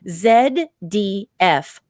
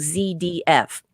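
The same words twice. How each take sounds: First: The letter Z is said as zed. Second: The letter Z is said as zee.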